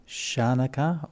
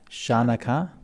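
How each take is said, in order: The two takes are said the same way.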